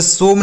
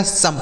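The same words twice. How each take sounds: First: सोम said with a long "o" vowel, as in bone; सोम with the ओ sound held; wrong long-o reading. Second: सम said with a short "uh" vowel, like English "sum"; सम, short open vowel, rhyming with "hum"; correct short-vowel reading. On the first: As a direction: misread the word as सोम, rhyming with home. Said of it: "इसे सोम नहीं पढ़ा जाएगा". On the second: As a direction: read it as सम, no "o" sound. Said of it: "क्या पढ़ा जाएगा? सम पढ़ा जाएगा". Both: Shown as a demonstration.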